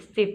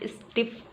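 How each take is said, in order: First: स्टिफ with one short final F; correct pronunciation. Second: स्टिफ with a drawn-out double F at the end; wrong pronunciation. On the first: Teacher corrects learners, demonstrating the right way. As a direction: end स्टिफ on a single brief F. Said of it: "यह है सिर्फ स्टिफ". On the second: Teacher rejects the mistake, demonstrating the wrong way. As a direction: hold the final F of स्टिफ. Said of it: "नहीं है". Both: Shown as a demonstration.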